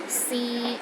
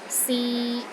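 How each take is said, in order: First: The pitch stays steady in the middle. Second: The same.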